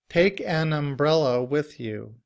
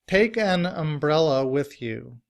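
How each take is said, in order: The two takes are said the same way.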